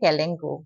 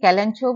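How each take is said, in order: First: The third syllable is said with a 'k' sound. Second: The third syllable is said with a 'ch' sound. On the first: This is the actual pronunciation. The speaker calls it right. "Actual প্ৰনাউন্সিয়েশ্যনটো হৈছে কেলেংকো" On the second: This is how it is commonly said in India. The speaker calls it wrong. "ইণ্ডিয়াত আমি কেলেঞ্চো বুলি কওঁ"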